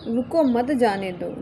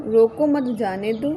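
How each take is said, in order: First: रुको stressed, then मत जाने दो as one group; pause after रुको. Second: रोको मत as one group, stress on मत; pause after मत. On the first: Teacher repeats the punctuation example, pause after रुको. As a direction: break right after रुको. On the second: Teacher repeats the punctuation example, pause after मत. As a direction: break after मत, then जाने दो. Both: Shown as a demonstration. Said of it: "सही भाव स्पष्ट हो पाता है".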